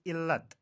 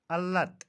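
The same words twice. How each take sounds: First: इल्लत said il-lat; इल्लत as illat; correct pronunciation. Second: अल्लत said al-lat; अल्लत as allat; mispronunciation. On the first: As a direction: say इल्लत with i first. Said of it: "सही तलफ़ुज़ इल्लत". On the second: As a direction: say अल्लत with a first. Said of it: "का सही तलफ़ुज़". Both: Shown as a demonstration.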